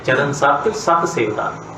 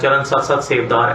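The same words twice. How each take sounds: First: The words are read with pauses between them. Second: The words are run together without pausing.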